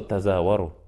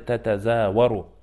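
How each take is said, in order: First: The opening syllable 'ta' is said once. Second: The opening syllable 'ta' is said twice. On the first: One repeated letter is dropped to ease pronunciation. "Просто «та-за-вару», чтобы облегчить" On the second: This is the full form before shortening. "в начале урока мы сказали «та-та-за-вару»"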